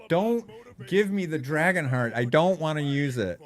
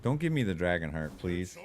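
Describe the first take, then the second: First: High, loud whiny begging; loud mock plea. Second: Said in the usual way. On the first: Real, not acted. Streamer pleading loudly with the game not to give the item. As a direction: beg the game loudly, pitched way up.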